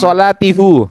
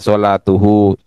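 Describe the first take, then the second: First: The vowels after the t are i then u. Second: The vowels after the t are u then u. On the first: The speaker calls it wrong. "ya sulit" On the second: The speaker calls it right. "Maka disesuaikan sholatuhu"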